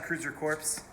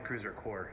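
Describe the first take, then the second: First: The last word ends with a P and S sound. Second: The last word ends without a P or S sound. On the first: The speaker calls it wrong. "Corpse, it sounds like a dead body though" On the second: The speaker calls it right. "Probably Cruiser Core"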